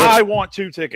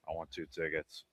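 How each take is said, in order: First: It is said with lively enthusiasm. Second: It is said flatly, without enthusiasm.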